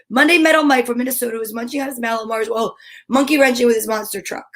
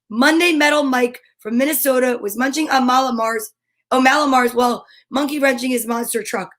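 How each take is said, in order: First: It is said very fast. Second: It is said at a normal, unhurried speed.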